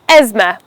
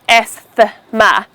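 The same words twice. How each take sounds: First: The th sound is left out. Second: The th sound is pronounced. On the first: The speaker calls it right. "The th in the word is silent" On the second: The speaker calls it wrong. "Not as asthma"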